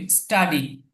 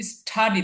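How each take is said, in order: First: স্টাডি with ট, no puff of breath; unaspirated T. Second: স্টাডি with a breath puff after T, like ঠ; aspirated T. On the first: Teacher models the correction for students, স্টাডি with ট sound. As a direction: say স্টাডি with a plain retroflex T. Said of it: "ট এর মতো উচ্চারণ হবে". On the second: Teacher shows students a wrong reading, স্টাডি with ঠ sound. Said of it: "তাহলে কিন্তু হলো না". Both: Shown as a demonstration.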